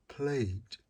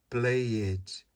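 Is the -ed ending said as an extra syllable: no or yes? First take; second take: no; yes. First: The ending joins the verb with no extra syllable. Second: The ending is said as an extra separate syllable. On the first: The speaker calls it right. "eu não falo o E" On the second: The speaker calls it wrong. "Não pode falar played, não pode pronunciar o E"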